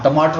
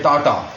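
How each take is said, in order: First: Said in the usual way. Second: टाटा for टमाटर, middle "ma" and final "r" dropped; child's mispronunciation. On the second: Retold or imitated. Father explains his toddler's word for tomato, imitated baby pronunciation. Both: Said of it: "टमाटर को कहते हैं टाटा".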